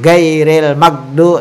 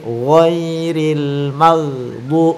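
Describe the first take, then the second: First: The g sounds are plain, hard stops. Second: The g sounds are rasped in the upper throat. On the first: The speaker calls it wrong. "bukan gairil magdu" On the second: The speaker calls it right. "sifat huruf gha itu adalah bunyi di di tenggorokan atas"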